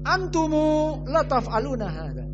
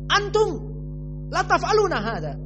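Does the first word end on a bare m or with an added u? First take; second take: added u; bare m. First: The first word ends with an added u after m. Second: The first word ends on a silent, vowelless m.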